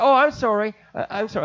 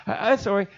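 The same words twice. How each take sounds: First: Flustered apology. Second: Said in the usual way. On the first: Retold or imitated. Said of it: "I said". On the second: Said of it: "I was talking to God".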